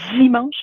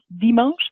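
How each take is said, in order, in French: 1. Le d est affriqué, comme dz. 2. Le d est une occlusive simple. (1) "il y a l'affrication des T et des D, donc typiquement dimanche" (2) "versus dimanche"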